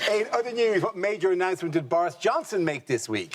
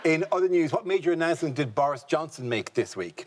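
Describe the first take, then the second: First: It is said in a happy, joyous tone. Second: It is said in a subdued, less joyous tone.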